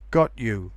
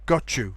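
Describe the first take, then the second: First: The t and y sounds stay separate. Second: The t and y merge into ch.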